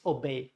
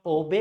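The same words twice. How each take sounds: First: Obey as uh-BEY, schwa first; weak O, strong BEY in obey; obey falling on a stressed final syllable; stress on second syllable. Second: Obey as O-bey, full O stressed; obey with the weight at the front; wrong stress, first syllable. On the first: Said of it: "Schwa sound and B E Y". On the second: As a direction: punch the O of obey. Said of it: "It's not obey". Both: Shown as a demonstration.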